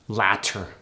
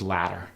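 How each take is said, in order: First: The middle T is a clear T. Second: The middle T is a soft D-like tap.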